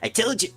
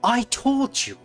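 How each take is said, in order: First: It is said in a Sonic voice. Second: It is said in a Liquid Snake voice.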